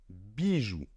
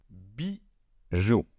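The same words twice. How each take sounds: First: Soft. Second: Said in the usual way. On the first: Shown as a demonstration. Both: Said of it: "Il se prononce ainsi".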